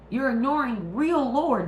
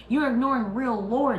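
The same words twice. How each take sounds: First: Real stretched high and loud; stress on real. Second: You're hit high and loud; stress on You're. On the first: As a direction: lean on real in You're ignoring real lore. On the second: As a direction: punch You're in You're ignoring real lore. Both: Real, not acted.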